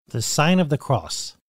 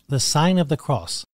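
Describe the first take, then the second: No difference in how they are said.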